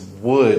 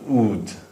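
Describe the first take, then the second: First: The word begins with a clear W sound. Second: The word begins with no W sound. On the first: The speaker calls it right. "It's wood" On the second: The speaker calls it wrong. "it's not ood"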